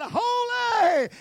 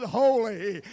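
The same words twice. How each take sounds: First: Holy! shouted high and loud; exultant shout. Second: Said in the usual way. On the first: Acted. One seraph outdoing another, shouting Holy!.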